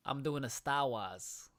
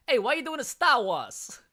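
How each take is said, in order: First: Slow, tentative Boston accent attempt. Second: Loud, high hammed-up Boston accent. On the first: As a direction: have a go at a Boston accent, slowly. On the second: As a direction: yell it out as a mock Bostonian. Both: Shown as a demonstration. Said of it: "That's the best Boston accent".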